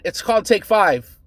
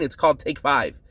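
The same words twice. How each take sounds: First: Said in the usual way. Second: Condescending. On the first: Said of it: "He said". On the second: Retold or imitated. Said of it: "like I was being stupid".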